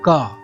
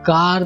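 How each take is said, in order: First: The word ends without any r sound. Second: The word ends with a clear r sound. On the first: "British English में का बोलते हैं का, but यहाँ पर आर का उच्चारण नहीं होगा" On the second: "American English में कार बोलेंगे"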